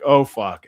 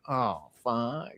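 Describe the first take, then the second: First: It sounds alarmed, reacting to an angry monster. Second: It sounds sympathetic, reacting to a sad monster.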